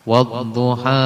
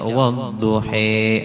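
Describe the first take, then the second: First: The final vowel is a plain open a. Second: The final vowel is tilted toward e.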